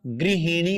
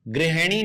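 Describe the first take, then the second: First: गृहिणी said gri-hi-ni with short i vowels; गृहिणी with short i in both syllables; correct pronunciation. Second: गृहिणी said gre-he-ni with e vowels; गृहिणी mispronounced with e instead of i; wrong pronunciation. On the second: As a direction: show the wrong form of गृहिणी with e. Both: Shown as a demonstration. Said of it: "गृहिणी नहीं होता".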